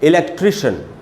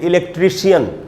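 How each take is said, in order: First: The ending is said as one syllable, shun. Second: The ending is said as two syllables, shee-un. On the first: The speaker calls it right. "बोलना चाहिए" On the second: The speaker calls it wrong. "हम बोलते हैं"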